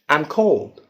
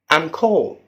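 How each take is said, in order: No difference in how they are said.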